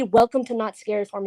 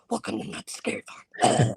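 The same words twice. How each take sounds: First: Said in the usual way. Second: Creepy whispered demon voice; demonic. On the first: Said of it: "like, say". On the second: Retold or imitated. Performer replaying her creepiest audition welcome, demonic whisper. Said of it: "in the most demonic voice".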